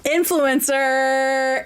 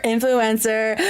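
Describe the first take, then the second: First: Протяжно, медленно тянет «Influencer», как пародийный инфлюенсер; растягивает слово с наигранным пафосом; mock influencer. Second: Said in the usual way. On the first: Mocks influencer saying j'adore.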